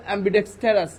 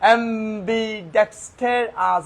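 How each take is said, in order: First: "অ্যাম্বিডেক্সটারাস" as one flowing word; whole "অ্যাম্বিডেক্সটারাস" in one breath; said all together. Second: "অ্যাম্বিডেক্সটারাস" slowly as am, bi, dex, ter, as; five separated beats on "অ্যাম্বিডেক্সটারাস"; split into syllables. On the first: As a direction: run "অ্যাম্বিডেক্সটারাস" together without gaps. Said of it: "একসাথে বললে". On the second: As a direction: stretch out each syllable of "অ্যাম্বিডেক্সটারাস". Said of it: "syllable ভেঙে ভেঙে পড়ে". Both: Shown as a demonstration.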